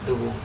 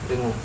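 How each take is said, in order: The two takes are said the same way.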